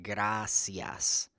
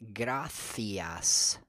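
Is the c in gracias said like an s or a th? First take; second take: s; th. First: The c is said like an s. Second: The c is said like a th. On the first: This is how it is said in Latin America. "just sounds like the regular letter S" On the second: This is how it is said in Spain. "in Spain, that word would be correctly pronounced gracias"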